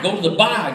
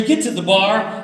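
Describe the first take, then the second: First: Mock Boston accent, "bar" with its R dropped; thick Boston accent. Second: Said in the usual way. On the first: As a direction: say "bar" as "bah", Boston-style. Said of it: "don't know how to make an R sound". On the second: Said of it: "he does know how to make an R sound".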